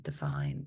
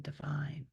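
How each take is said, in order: First: Divine whispered, pitched far lower; emphasized divine. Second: Divine voiced but much softer; emphasized divine. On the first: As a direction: lean into divine in a low whisper. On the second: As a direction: let divine sink softly. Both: Shown as a demonstration. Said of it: "You can even emphasize the word divine".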